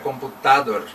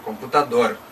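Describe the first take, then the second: First: The stress is on the second-to-last syllable. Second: The stress is on the last syllable. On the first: The speaker calls it wrong. "Se fosse a penúltima sílaba, seria computador" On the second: The speaker calls it right. "É computador"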